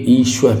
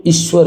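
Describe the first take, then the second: First: ईश्वर starting on long "ee"; correct long i. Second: ईश्वर starting on short "i"; wrong short i. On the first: Teacher gives the correct ईश्वर, long opening "ee". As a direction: say ईश्वर as "eeshwar". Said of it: "सही है". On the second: Teacher shows the faulty ईश्वर, short opening "i". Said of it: "इसमें छोटी है". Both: Shown as a demonstration.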